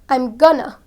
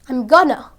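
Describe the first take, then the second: Both takes have the same delivery.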